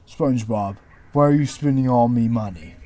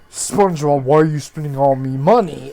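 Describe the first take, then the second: First: It is said in a Squidward voice. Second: It is not said in a Squidward voice.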